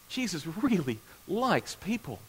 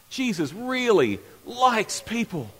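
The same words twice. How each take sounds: First: It is said in a calm, plain way. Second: It is said emphatically, with conviction.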